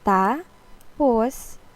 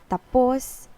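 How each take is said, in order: First: There is a short break between the two syllables. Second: The two syllables run together quickly without break. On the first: It means then. "ta and a pause, then pause" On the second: It means done. "just the fast version"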